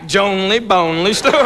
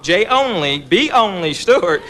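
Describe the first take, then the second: First: "Jonely Bonely" run together as rhyming names; run-together misreading. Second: J and B kept apart from each "only"; separated initials. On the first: Application read back wrong, "Jonely Bonely" fused as names. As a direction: blend J and B into "only": "Jonely Bonely". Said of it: "It came back". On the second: Man spelling out his application, words kept apart. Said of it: "On the application, he wrote". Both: Retold or imitated.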